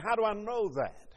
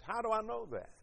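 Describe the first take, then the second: First: HOW pushed up, words falling after; preacher leaning on the word How to press the question, stressed. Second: I lifted, rest dropped softer; preacher repeating the question to the congregation, now leaning on I; stress on I. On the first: Preacher hits How hard, then lets the question fall. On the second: Lean on I and let the rest fall away quietly. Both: Shown as a demonstration.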